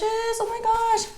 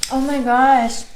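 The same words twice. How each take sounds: First: "Oh my gosh" slow and way up high; slow, high, blissful oh my gosh; ecstatic drawn-out exclamation. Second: A louder, thrilled oh my gosh; loud delighted reaction to the first bite; delighted exclamation. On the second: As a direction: react as the taste hits. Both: Real, not acted. Reacting to tasting food.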